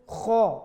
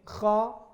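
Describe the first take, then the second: First: The lips are pushed forward and rounded. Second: The lips stay neutral, not pushed forward. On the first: The speaker calls it wrong. "Yang maju itu kho, itu maju" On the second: The speaker calls it right. "kho itu tidak maju"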